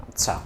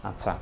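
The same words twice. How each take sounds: Both takes have the same delivery.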